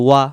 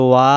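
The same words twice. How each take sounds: First: "ওয়া" cut short, a quick single beat; "ওয়া" said briefly without any stretch; no elongation. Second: "ওয়া" stretched into a long held aa; "ওয়া" with the vowel sustained; elongated vowel. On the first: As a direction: keep the vowel of "ওয়া" short. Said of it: "এখানে টান নাই". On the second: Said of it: "টান দেওয়ার কারণে". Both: Shown as a demonstration.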